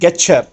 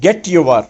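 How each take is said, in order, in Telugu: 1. t మరియు y కలిసి ch ధ్వనిగా మారతాయి. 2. t మరియు y విడివిడిగా ఉంటాయి.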